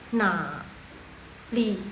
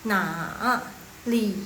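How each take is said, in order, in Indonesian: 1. Suku kata pertama hanya turun, tidak naik. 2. Suku kata pertama turun penuh, lalu naik. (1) "dia bacanya jadi setengah" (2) "nada ketiga dia turun, naik, turun dulu baru dia naik"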